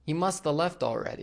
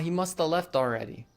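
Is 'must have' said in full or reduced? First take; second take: reduced; reduced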